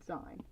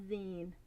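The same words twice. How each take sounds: First: Zine with a long i, like "line"; zine as "zyne". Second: Zine with an ee, like "bean"; zine as "zeen". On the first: Artist admitting a habitual mistake, zine said as "zyne". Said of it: "'cause I always said". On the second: Artist settling on the likely right form, zine said as "zeen". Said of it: "I'm pretty sure it's". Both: Shown as a demonstration.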